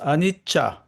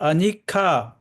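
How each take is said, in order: First: The middle consonant is a ch sound. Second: The middle consonant is a hard k sound. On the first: The speaker calls it right. "but it's Anicca. Cha" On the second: The speaker calls it wrong. "not Anika"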